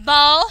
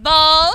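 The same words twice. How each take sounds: First: Bow rhyming with cow; OW as in how. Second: Bow loud, rhyming with go; O as in tomorrow. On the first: Teacher reading the how column, bow with OW. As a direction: say bow alone with an "ow" glide. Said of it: "how എന്ന രീതിയിലാണല്ലേ". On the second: Teacher reading the tomorrow column, bow with long O. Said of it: "Tomorrow, അല്ലേ". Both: Shown as a demonstration.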